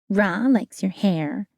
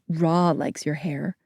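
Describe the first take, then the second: First: It is said in a bratty, childish voice. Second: It is said in an ordinary voice.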